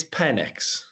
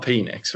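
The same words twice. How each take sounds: First: Penix said as PEN-iks; first syllable of Penix rhymes with "ten"; short-e pronunciation. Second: Penix said as PEE-niks; first syllable of Penix rhymes with "see"; long-e mispronunciation. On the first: Shown as a demonstration. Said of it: "address the pronunciation". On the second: Retold or imitated. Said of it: "not Penix, right?".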